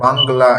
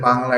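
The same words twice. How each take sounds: First: বাংলা with an audible g, as bang-gla; wrong added g. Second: Said in the usual way. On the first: Shown as a demonstration. Teacher showing how we won't say it, বাংলা as bang-gla. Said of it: "এভাবেও বলবো না". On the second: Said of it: "এটাকে বাংলা এভাবেও বলবো না".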